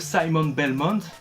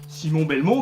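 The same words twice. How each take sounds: First: The name is said the usual, current way. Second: The name is said the local regional way.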